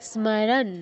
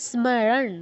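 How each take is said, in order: Both takes have the same delivery.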